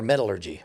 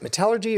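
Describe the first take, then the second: First: "metallurgy" as MET-uh-lur-jee; first-syllable stress. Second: "metallurgy" as muh-TAL-ur-jee; second-syllable stress. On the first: Offering the other option to listeners, "metallurgy" stressed on MET. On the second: Asking listeners which way is correct, "metallurgy" stressed on TAL. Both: Shown as a demonstration. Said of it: "is it metallurgy or metallurgy?".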